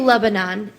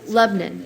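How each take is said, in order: First: The name is said in a non-Southern accent. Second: The name is said in a Southern accent. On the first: This is how an outsider says it. The speaker calls it wrong. "I say Lebanon" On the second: This is how the locals say it. The speaker calls it right. "they say no, Lebanon"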